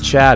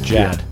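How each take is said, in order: First: The name begins with a 'ch' sound. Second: The name begins with a 'j' sound. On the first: The speaker calls it wrong. "It's not Chad" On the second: The speaker calls it right. "J-A-D. Jad"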